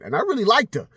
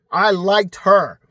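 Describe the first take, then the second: First: Said in the usual way. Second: "I liked her" stretched out slow and loud; slow emphatic repeat. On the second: Real, not acted. Insisting to viewers he liked her, slow and loud. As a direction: lean hard on every word of "I liked her".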